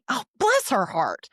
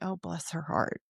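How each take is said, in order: First: It is said in a snide, sarcastic tone. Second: It is said in a warm, sympathetic tone. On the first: The speaker resents her. "she just took the last dress in a size eight that was for me" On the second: The speaker feels sorry for her. "her husband passed away"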